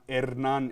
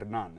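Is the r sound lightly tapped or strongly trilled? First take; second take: trilled; tapped. First: The r is a long, strong trill. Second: The r is a short, light tap. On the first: The speaker calls it wrong. "it's not a double R, so it's not Hernan" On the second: The speaker calls it right. "It's a, a subtle roll, but not a, a hard roll"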